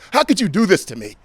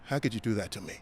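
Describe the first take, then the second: First: The emotion is big, bold and projected. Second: The emotion is small, subtle and restrained. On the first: It is played for a theater stage. "this is how potentially I would deliver something like this on stage" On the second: It is played for television or film. "Television and film, much smaller"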